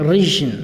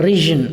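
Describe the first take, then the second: No difference in how they are said.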